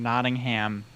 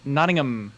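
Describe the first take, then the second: First: The last syllable is a full 'ham'. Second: The last syllable is a reduced 'um'. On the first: The speaker calls it wrong. "We got made fun of a bunch for saying Nottingham" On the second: The speaker calls it right. "like um instead of ham"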